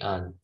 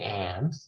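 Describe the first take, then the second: First: The word has a weak, reduced vowel. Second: The word has a full, clear vowel. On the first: The word is said in ordinary speech. "mostly it's in its weak form. So you just say un" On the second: The word is being emphasized. "If you want to emphasize it, you can say an"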